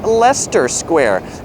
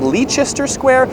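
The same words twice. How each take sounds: First: The name is not pronounced the way it's spelled. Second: The name is pronounced the way it is spelled. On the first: The speaker calls it right. "but it's pronounced" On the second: The speaker calls it wrong. "looks like it's called"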